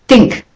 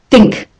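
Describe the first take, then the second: No difference in how they are said.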